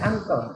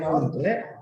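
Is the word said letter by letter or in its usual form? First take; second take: usual form; letter by letter. First: It is said as two syllables, without extra vowel. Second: Each written letter is sounded out, vowel included. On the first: This is how it is actually read. The speaker calls it right. "bacanya uncle" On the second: This is how it is written. The speaker calls it wrong. "Tulisannya uncelet"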